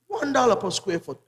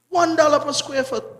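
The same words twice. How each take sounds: First: It is said at a normal volume. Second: It is said more loudly.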